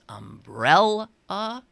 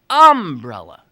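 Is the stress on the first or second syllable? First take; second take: second; first. First: The stress is on the second syllable. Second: The stress is on the first syllable. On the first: This is how the speaker says it. "In my world, it's" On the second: This is how people in the local area say it. "Around here it's umbrella"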